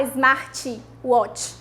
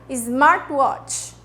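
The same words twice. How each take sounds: First: Smartwatch said with an extra i sound, izmatiwatch; mock the Brazilian habit of adding vowels to smartwatch; wrong pronunciation. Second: Smartwatch said with the i sound swallowed, no extra vowel; correct pronunciation. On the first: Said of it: "A gente não fala smartwatch". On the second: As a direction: say Smartwatch cleanly. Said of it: "a gente engole o som do i". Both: Shown as a demonstration.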